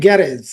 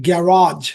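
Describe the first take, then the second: First: গ্যারেজ ending in a short "rez"; local "garage". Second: গ্যারাজ with long open "raazh" ending; English "garage". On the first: Teacher quotes how we know it, local pronunciation. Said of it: "আমরা জানি গ্যারেজ". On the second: Teacher models garage for learners, English pronunciation. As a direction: stretch the second syllable of গ্যারাজ. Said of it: "ইংলিশে তো বলে গ্যারাজ". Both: Shown as a demonstration.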